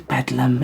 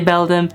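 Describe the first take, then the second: First: The d sound comes before the l. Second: The d sound comes after the l. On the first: The speaker calls it wrong. "I always say Bedlam. It's not Bedlam" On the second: The speaker calls it right. "Hey Beldam"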